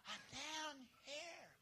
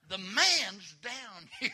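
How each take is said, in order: First: Tiny, high, drawn-out voice; weak falsetto call from underneath; feeble answer. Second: Loud, high, drawn-out holler; hammed-up shout for help; calling out. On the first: Acted. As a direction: answer softly, with hardly any voice. Fallen man answers with no voice. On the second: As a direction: holler it high and slow, stretching the words. Calls out where the man is.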